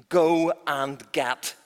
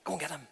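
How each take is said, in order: First: Drawn-out slow command; queen giving a slow order. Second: Softer hushed order; a hushed aside to the servant; quiet repeat. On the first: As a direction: stretch the order out slowly. First full order. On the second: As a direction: say it again under your breath. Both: Acted.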